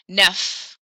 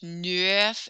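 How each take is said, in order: First: The vowel is said as the French 'eu' sound. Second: The vowel is said with the letters flipped, 'ue'. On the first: The speaker calls it right. "E U makes an E sound in French" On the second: The speaker calls it wrong. "don't flip the E and the U. That would be pronounced"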